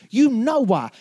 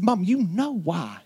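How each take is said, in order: First: Higher, louder, pressing the point; insistent repeat. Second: Said in the usual way. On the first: Retold or imitated. Son insisting to his mom, pressing louder. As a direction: repeat it, pushing harder.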